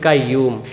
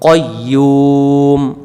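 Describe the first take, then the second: First: The first syllable is an open 'kai' sound. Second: The first syllable is a short 'koy' sound. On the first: The speaker calls it wrong. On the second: The speaker calls it right.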